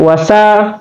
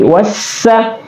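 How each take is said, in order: First: The s sound is short and single. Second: The s sound is held and doubled. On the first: The speaker calls it wrong. "bukan wasa" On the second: The speaker calls it right. "bertasdid berarti ditekan"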